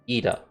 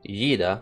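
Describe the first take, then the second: First: The name begins with a plain vowel. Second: The name begins with a Y sound. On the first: The speaker calls it right. "but it's pronounced Ida" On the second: The speaker calls it wrong. "I'm so close to pronouncing it as Yida, because there's a Y"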